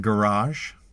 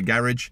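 First: The word is said in an American accent. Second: The word is said in a British accent.

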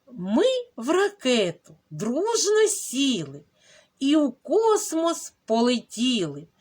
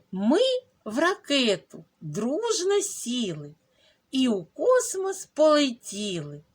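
Both takes have the same delivery.

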